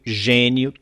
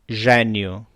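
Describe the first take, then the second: First: The stressed vowel is closed. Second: The stressed vowel is open. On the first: This is how it is said in Brazil. "no Brasil dizemos ... fechados" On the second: This is how it is said in Portugal. "em Portugal dizem ... abertos"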